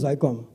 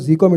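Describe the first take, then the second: First: The first part is said as one syllable 'zy'. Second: The first part is said as the letter Z. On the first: This way sounds more foreign. The speaker calls it right. "it's Zycom" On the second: This is the original way of saying the name. The speaker calls it wrong. "it is not Z COM"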